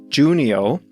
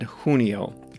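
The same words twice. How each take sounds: First: The name begins with a hard J sound. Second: The name begins with a softer, non-J sound. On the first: The speaker calls it right. "with a hard J" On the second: The speaker calls it wrong. "I think I said Junio"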